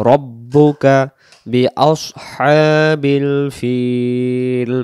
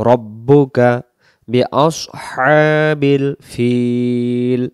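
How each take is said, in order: No difference in how they are said.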